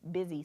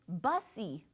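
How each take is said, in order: First: The first vowel sounds like the i in bizz. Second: The first vowel sounds like the u in bus. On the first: The speaker calls it right. "the word is busy" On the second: The speaker calls it wrong. "it looks like it should say bussy"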